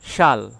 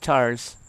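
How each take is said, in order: First: It starts with sh and ends with l. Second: It starts with ch and ends with s.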